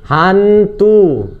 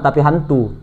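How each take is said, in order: First: Higher, louder hammed-up ghostly hantu; teasing the idea of chasing ghosts, mock spooky. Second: Said in the usual way.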